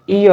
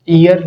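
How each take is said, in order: First: ईयर said as ee-uh, the r dropped, falling; correct way. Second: ईयर said as the wrong form, with the r sounded; louder mock-wrong ईयर with the r sounded. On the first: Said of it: "ईयर होता है". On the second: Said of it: "ईयर नहीं होता". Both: Shown as a demonstration.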